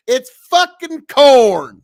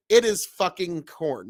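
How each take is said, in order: First: "It's fucking corn" slow, loud, higher, drawn out; Nebraska anger drawl. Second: Said in the usual way. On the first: Shown as a demonstration. Streamer showing the right way, loud angry drawl. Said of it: "there you go". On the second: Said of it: "Not, he said".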